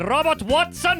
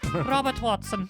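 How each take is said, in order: First: The name is said in a plain accent. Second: The name is said in a Scottish accent. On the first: The speaker calls it wrong. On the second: The speaker calls it right.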